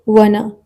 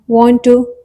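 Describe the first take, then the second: First: The words are blended into one reduced word. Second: Both words are said fully and separately.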